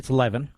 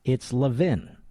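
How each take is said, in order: First: The first vowel differs from the vowel in love. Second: The first vowel sounds like the vowel in love. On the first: This is how much of the country says it. "in much of the country, it's Levin" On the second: This is how Philadelphia says it. "But in Philadelphia, that's where I'm from. It's Levin"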